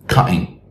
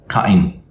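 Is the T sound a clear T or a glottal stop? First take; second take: glottal stop; glottal stop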